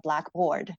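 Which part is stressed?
board. The stress is on board.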